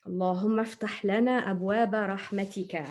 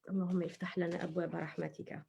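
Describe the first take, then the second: First: Said in the usual way. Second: Whispered prayer. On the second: Shown as a demonstration. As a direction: whisper اللهم افتح لنا أبواب رحمتك quickly, no voice at all. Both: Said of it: "When we go to the masjid".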